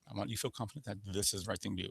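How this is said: The pitch stays fairly level to the end. It is a confident statement. "So it's not much inflection going up or down"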